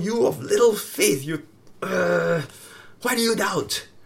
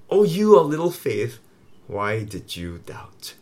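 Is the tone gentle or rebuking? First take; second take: rebuking; gentle. First: It is said scoldingly, as a rebuke. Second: It is said gently, without scolding.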